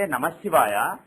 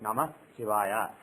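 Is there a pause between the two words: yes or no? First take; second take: no; yes. First: It is said joined, with no pause. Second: There is a breath between the two words.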